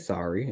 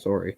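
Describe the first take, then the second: First: It is said with a non-Canadian pronunciation. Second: It is said with a Canadian pronunciation. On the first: The speaker calls it wrong. "I can say sorry, it just doesn't sound right to me" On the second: The speaker calls it right. "the way like Canadians choose to say sorry"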